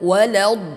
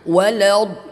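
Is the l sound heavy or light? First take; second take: heavy; heavy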